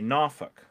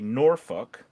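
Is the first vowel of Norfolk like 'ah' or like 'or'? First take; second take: ah; or. First: The first vowel sounds like 'ah'. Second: The first vowel sounds like 'or'.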